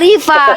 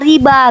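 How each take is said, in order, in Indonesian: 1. Konsonan tengahnya bunyi v. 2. Konsonan tengahnya bunyi b. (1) "nama aku aslinya Riva" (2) "orang Spanyol nggak bisa panggil V dia bilang"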